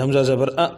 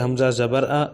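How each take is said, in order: First: The final vowel is cut off abruptly. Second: The final vowel has a moderate, even length. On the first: The speaker calls it wrong. "इतना जल्दी पढ़ते हैं कि झटका महसूस होने लगे" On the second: The speaker calls it right. "सही पढ़ेंगे"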